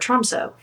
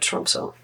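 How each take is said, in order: First: It is said with a Canadian English pronunciation. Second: It is said with a Norwegian-style pronunciation. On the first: "if you're Canadian like me" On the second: "that's how they pronounce it, kind of"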